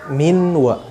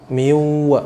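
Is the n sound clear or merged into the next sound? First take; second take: clear; merged. First: The n is pronounced clearly before the w. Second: The n merges into the following w sound. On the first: The speaker calls it wrong. "bukan dibaca minwa" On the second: The speaker calls it right. "langsung nunnya dimasukkan ke dalam huruf setelahnya menjadi miwa"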